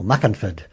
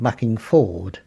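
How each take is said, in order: First: "Muckenford" as one word, G dropped, weak "fud" ending; genuine Essex pronunciation. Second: Said in the usual way. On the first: Shown as a demonstration. Showing the genuine Essex name, local pronunciation. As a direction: run "Muckenford" together with a reduced last syllable. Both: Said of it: "if you were genuine Essex".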